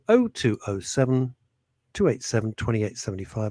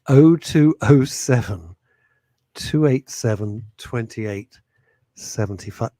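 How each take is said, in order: First: The number is read at normal, quick speed. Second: The number is read slowly and deliberately.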